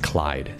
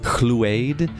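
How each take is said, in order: First: The name is said as 'Clyde'. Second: The name is said as 'Chlu-ade'. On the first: The speaker calls it right. "it's Clyde" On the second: The speaker calls it wrong. "I always pronounced it as Chluade, because I didn't know how to pronounce it"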